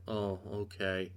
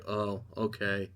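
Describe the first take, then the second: First: Soft, slow, let-down shrug; mock meek acceptance, trailing off quiet; deflated oh okay. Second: Soft, slow, let-down shrug; mock meek acceptance, quiet and slow; deflated oh okay. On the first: Homelander giving up after his son's rejection, soft deflated shrug. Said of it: "And Homelander's like". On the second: Butcher rejected by Ryan at the party, soft deflated shrug. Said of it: "And Butcher's like".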